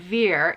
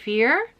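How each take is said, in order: First: The word begins with a V sound. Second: The word begins with an F sound. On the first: The speaker calls it wrong. "instead of veer" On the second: The speaker calls it right. "So the V is pronounced like an F"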